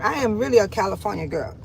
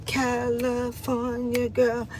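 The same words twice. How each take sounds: First: Said in the usual way. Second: Very slow, softer, savoring the words; drawn-out softer. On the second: Real, not acted. Woman proudly claiming her roots, slow soft drawn-out repeat. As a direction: let it linger dreamily. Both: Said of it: "Yes, I'm from California".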